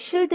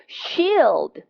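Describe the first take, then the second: First: The vowel is clipped short. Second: The vowel is drawn out long. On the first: The speaker calls it wrong. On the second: The speaker calls it right.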